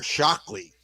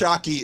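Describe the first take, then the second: First: The name is said with an L sound. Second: The name is said without an L sound. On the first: The speaker calls it wrong. "I've been putting an L in there" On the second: The speaker calls it right. "I'm finally saying it right"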